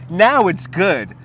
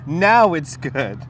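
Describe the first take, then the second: First: Satisfied. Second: Said in the usual way. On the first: Real, not acted. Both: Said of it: "too much sugar for the sugar daddy".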